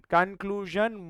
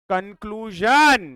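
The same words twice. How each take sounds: First: Said in the usual way. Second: "conclusion" drawn out slowly, louder, falling; slow, loud "conclusion" to grab the class; emphatic announcement. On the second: Real, not acted. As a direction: land "conclusion" like a headline. Teacher announcing the takeaway.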